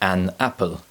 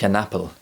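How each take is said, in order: First: The two words are said separately. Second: The two words are joined together.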